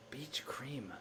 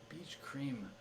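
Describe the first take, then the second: First: Unvoiced whisper of the answer. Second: Said in the usual way. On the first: Shown as a demonstration. Solver whispering the answer to herself, whispered. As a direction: breathe the words out with no voice. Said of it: "repeats it plainly right after". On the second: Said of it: "whispered take just before".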